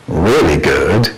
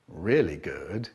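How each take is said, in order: First: Slow, loud, drawn-out relish; loud delighted. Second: Slow, softer, contented murmur; quiet pleased. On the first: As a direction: savour it loudly and slowly. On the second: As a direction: savour it quietly and slowly. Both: Shown as a demonstration. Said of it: "repeated line, second ending differs".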